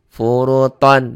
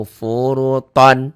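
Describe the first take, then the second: The two takes are said the same way.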